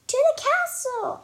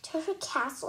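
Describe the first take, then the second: First: High, loud joyful shout. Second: Said in the usual way. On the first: Acted. Dory shouting her news to Mom, loud and high. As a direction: belt it out to the whole house. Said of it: "I shout". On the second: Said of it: "I say".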